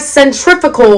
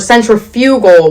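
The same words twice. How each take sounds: First: It is said in the usual standard way. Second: It is said to sound like centrifuge. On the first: The speaker calls it right. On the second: The speaker calls it wrong.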